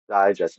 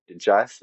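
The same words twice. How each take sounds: First: "digest" as DIE-jest, front-stressed; first-syllable stress. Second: "digest" said di-JEST; second-syllable stress. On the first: Host contrasting noun with verb, stress on first syllable. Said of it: "is the noun". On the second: Host contrasting verb with noun, stress on second syllable. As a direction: punch the final syllable of "digest". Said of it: "is the verb". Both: Shown as a demonstration.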